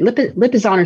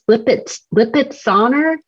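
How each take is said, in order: First: The middle consonant is pronounced as 'z'. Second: The middle consonant is pronounced as 'ts'. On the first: The speaker calls it right. "It's just a Z" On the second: The speaker calls it wrong. "He like adds a T in there"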